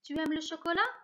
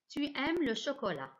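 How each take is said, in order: First: The voice rises at the end like a question. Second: The voice falls at the end like a statement.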